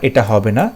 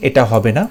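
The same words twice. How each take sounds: The two takes are said the same way.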